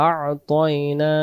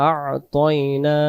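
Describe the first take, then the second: Both takes have the same delivery.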